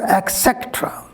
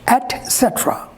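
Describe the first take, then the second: First: The first word sounds like 'ek'. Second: The first word sounds like 'et'. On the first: The speaker calls it wrong. "So this ex is wrong here" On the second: The speaker calls it right. "The correct pronunciation of this word is et cetera"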